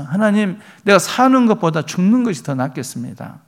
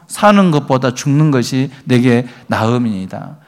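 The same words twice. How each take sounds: First: Mock annoyed whining, pitched higher; irritated complaint. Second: Said in the usual way. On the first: Jonah grumbling to God that death is better, irritated. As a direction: grumble at God as if fed up, a bit high. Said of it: "요나가 막 짜증내면서". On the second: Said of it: "시작".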